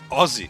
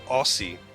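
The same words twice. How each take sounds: First: The middle sound differs from the one in 'Australia'. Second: The middle sound matches the one in 'Australia'. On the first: The speaker calls it right. "that's what people say" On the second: The speaker calls it wrong. "pronounce it like Australia"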